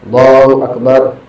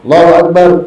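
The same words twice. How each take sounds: First: It is said slowly and calmly. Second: It is said fast and rushed. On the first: The prayer has a calm pause between movements. The speaker calls it right. "Bisa dibedakan" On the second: The prayer is hurried without a calm pause. The speaker calls it wrong. "Yang orang yang sholat tarawih cepat"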